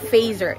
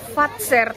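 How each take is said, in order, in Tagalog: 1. Ang gitnang katinig ay parang 'z'. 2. Ang gitnang katinig ay parang 'ts'. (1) "Hindi siya Fazer" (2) "Ano nga yung pronunciation ko na Fatser talaga siya"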